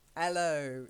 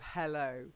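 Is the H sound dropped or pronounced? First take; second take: dropped; pronounced. First: The opening H sound is left out. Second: The opening H sound is clearly pronounced. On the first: "they drop the H" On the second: "instead of"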